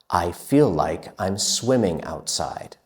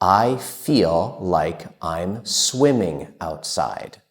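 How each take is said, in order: First: It is spoken at a quicker pace. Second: It is spoken at a slow, careful pace.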